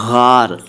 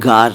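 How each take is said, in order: First: It starts with a throaty, rasping gh sound. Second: It starts with a hard, stopped g sound. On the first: The speaker calls it right. "मैं कह रहा हूँ गार" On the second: The speaker calls it wrong. "मैं गार नहीं कह रहा हूँ"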